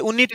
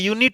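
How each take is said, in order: First: The word begins with a plain vowel sound. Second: The word begins with a y consonant sound. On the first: The speaker calls it wrong. "ये यूनिट नहीं है" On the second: The speaker calls it right. "ये से यग्गा आ रहा है"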